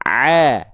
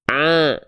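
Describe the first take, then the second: First: The sound comes out through the mouth only. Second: Part of the sound leaks through the nose. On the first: The speaker calls it right. "yang ini yang lebih tepat" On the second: The speaker calls it wrong. "yang masuk hidung"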